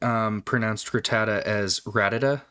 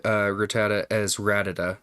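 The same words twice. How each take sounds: First: "Rattata" the dad's way, then "Rattata" said correctly; the dad's "Rattata" set against the proper "Rattata"; contrasting pronunciations. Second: "Rattata" said first the dad's wrong way, then "Rattata" the proper way; the dad's mispronounced "Rattata" beside the right "Rattata"; contrasting pronunciations. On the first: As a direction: lean on the difference between the two "Rattata". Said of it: "My dad". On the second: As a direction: set the dad's "Rattata" against the correct "Rattata". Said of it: "he said". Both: Shown as a demonstration.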